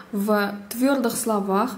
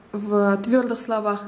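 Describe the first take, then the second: No difference in how they are said.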